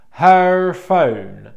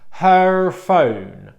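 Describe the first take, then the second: The two takes are said the same way.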